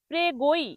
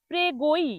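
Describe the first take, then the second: Both takes have the same delivery.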